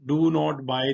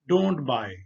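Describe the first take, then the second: First: Do and not are said as separate words. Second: Do and not merge into one syllable, don't. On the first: "डू नॉट बाय नहीं कहते" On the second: "बल्कि वो कहते हैं डोंट buy"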